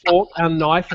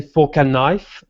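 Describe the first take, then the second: First: Said in the usual way. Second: Imitating French-accented "fork and knife". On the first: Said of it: "she's French. She said fork and knife". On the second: Waiter quoting a French colleague, French accent. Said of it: "she used to say fork and knife like that".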